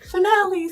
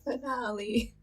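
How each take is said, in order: First: It is said in a happy, celebratory tone. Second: It is said in a sad, deflated tone. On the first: The last episode is a celebration. "I made it sound happy because I was like, yay, finale, celebration!" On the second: The last episode is something to regret. "Not, oh"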